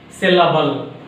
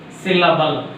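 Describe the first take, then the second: No difference in how they are said.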